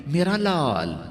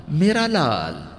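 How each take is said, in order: Both takes have the same delivery.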